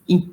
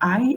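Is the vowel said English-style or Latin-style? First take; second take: Latin-style; English-style. First: The vowel is said the Latin way. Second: The vowel is said the English way. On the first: The speaker calls it right. "it's I" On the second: The speaker calls it wrong. "in English sometimes you pronounce as I. It's not I"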